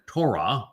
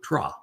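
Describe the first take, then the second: First: The O vowel is kept in the word. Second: The O vowel is dropped from the word. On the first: The speaker calls it right. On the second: The speaker calls it wrong.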